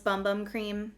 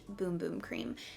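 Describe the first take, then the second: First: The vowel sounds like the word 'bum'. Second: The vowel sounds like the word 'boom'. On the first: It is a playful nickname. "which I like to call this Bum Bum Cream just because it makes me think of a butt" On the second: It is the product's real name. "I do think it is pronounced Boom Boom Cream"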